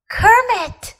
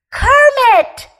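First: Higher pleading call of a name; begging call. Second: High, loud yell of the name. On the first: Little bear begging his sleeping friend to wake. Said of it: "Fuzzy begged a little louder". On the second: Scared little bear yelling to wake his friend. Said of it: "Fuzzy yelled". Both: A narrator's reading.

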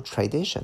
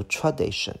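First: Tradition with a clearer "tray" first syllable; easier everyday pronunciation. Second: Tradition with a weak "truh" first syllable; dictionary pronunciation. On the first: Teacher offering learners the acceptable reading, tradition starting "tray". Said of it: "其实读tradition就可以". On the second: Teacher citing the phonetic symbols, tradition with reduced "truh". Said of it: "可能看音标里来讲". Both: Shown as a demonstration.

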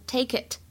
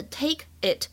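First: "take it" run together as "tay-kit"; linked words. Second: Said in the usual way. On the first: Shown as a demonstration. Teacher shows learners linking, "take it" said as one word. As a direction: carry the K of "take" onto "it". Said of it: "也可以连读，就会变成". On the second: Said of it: "take it也可以连读".

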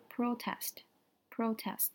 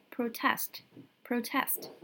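First: PROtest, the noun, stressed on the first syllable. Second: ProTEST, the verb, stressed on the second syllable. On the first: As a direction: say protest slowly with the weight on PRO. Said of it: "它的重音在前面". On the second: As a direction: say protest slowly with the weight on TEST. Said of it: "重音在后面". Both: Shown as a demonstration.

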